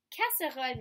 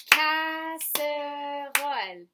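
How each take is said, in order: First: Said in the usual way. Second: Casserole drawn out very slowly and loudly in three beats; syllable by syllable. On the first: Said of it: "Est-ce qu'on peut compter combien de syllabes". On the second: Shown as a demonstration. Teacher counting syllables with the class, casserole very slow, syllable by syllable. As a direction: stretch each syllable: ca, sse, role. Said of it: "Et on compte".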